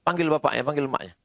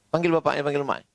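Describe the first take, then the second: No difference in how they are said.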